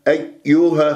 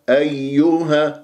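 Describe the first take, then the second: First: The first y sound is clipped and barely heard. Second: Both y sounds are heard clearly as doubled. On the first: The speaker calls it wrong. "ما أختلس الياء الأولى، أيها خطأ" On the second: The speaker calls it right. "يا مشدد نبر، وأسمع الياءين"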